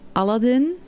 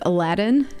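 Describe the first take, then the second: First: The name is said with a Dutch pronunciation. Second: The name is said with an English pronunciation. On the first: The speaker calls it wrong. "In Dutch you say Aladdin" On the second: The speaker calls it right. "instead of Aladdin"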